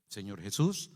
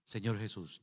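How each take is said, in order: First: "Jesús" left rising, as a prompt to repeat; low, lead-me line with a lift on "Jesús"; leading a prayer. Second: "Jesús" echoed low and soft, falling; dutiful, softer echo settling down on "Jesús"; repeating a prayer. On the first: Boy leads a man in prayer, "Jesús" rising as a prompt. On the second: Man repeats after the boy, "Jesús" soft and falling. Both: Retold or imitated. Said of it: "Repita después de mí".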